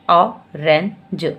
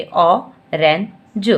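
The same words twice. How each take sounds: First: "orange" stretched very slowly, falling at the end; slow blended word. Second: "orange" stretched very slowly, rising at the end; slow blended word. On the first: Teacher finishing the blended word, slow and falling. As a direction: close the word with a slow fall. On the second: Teacher blending the word for a child, slowly. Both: Shown as a demonstration. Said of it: "फिर इकट्ठे बोलिए".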